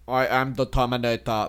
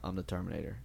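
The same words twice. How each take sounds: First: It is said plainly, without menace. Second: It is said in a dark, menacing way. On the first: "Not just like" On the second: "It'd be like real dark"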